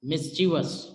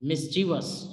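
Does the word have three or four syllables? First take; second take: three; three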